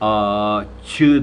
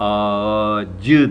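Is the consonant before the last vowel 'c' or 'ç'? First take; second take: ç; c. First: The consonant is a voiceless 'ch' sound. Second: The consonant is a voiced 'j' sound. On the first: The speaker calls it wrong. "a-çı demezsin" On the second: The speaker calls it right. "a-cı dersin. C ile"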